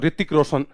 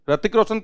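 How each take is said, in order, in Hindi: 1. नाम की शुरुआत 'ri' की आवाज़ से होती है। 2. नाम की शुरुआत 'ra' की आवाज़ से होती है। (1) "आप जब बोलते हो ऋतिक रोशन" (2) "रतिक रोशन तो नहीं कहते"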